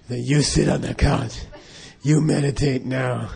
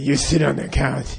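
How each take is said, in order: First: Slow, lightly voiced Dirty Harry order; a hint of a tough cop giving a command. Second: Dirty Harry. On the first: The Lama ordering the student onto the couch, Dirty Harry style. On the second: Retold or imitated. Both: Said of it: "He talked just like Dirty Harry".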